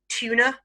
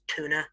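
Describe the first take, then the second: First: It is said in a British accent. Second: It is said in an American accent. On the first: "in British English" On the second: "In American English, it's tuna"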